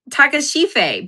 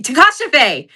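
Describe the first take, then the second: First: Takashife tried out, said wrong; a shaky first attempt at Takashife; wrong try. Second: Takashife said with stress on ka, ending in fay; corrected try. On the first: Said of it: "but it's not right". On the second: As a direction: land Takashife with stress on the second syllable. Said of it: "That's not how you say it". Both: Shown as a demonstration.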